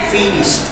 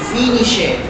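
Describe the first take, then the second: First: The ending is said as a short t sound. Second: The ending is said as an extra syllable. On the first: The speaker calls it right. "Is with this sound. ... with letter T" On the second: The speaker calls it wrong. "Most of people make those mistakes that say finish it"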